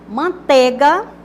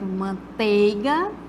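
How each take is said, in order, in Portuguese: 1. A segunda sílaba tem um som de E simples. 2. A segunda sílaba tem o ditongo EI. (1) "como se fosse com E, ... como se não tivesse um ditongo" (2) "o correto"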